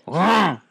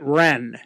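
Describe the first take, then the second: First: The name is said the local French way. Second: The name is said the English-speaker way. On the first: "they apparently pronounce it Rang" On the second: "I would have pronounced it Rennes"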